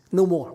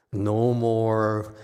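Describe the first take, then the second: First: "No more" shouted out higher and louder, falling hard on "No"; loud, higher exclaimed "No more"; emphatic "No more". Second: Said in the usual way. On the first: Real, not acted. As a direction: punch out "No more" like a firm declaration. Repeats renouncing with force.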